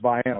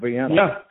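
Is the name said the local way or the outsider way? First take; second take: local; outsider. First: The name is said the local way. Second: The name is said the usual outsider way. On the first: This is how people from the area say it. The speaker calls it right. "Up here it's pronounced Vienna" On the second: This is how people from elsewhere say it. The speaker calls it wrong. "non-locals, how you should just call Vienna, which is not, it's not pronounced that way"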